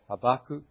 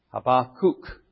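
First: The name is said the usual English way. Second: The name is said in a Hebrew-style way.

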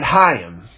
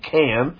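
First: The name is said with its Hebrew pronunciation. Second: The name is read out from its English spelling. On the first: The speaker calls it right. "But in the Hebrew, you pronounce it Chaim" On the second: The speaker calls it wrong. "I used to pronounce his name Cam because it's spelled C-H-A-I-M"

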